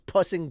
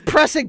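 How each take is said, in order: First: The word starts with 'p' and no 'r'. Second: The word starts with a clear 'pr' sound.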